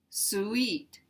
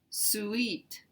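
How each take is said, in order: First: The word is said as two syllables. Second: The word is said as two syllables.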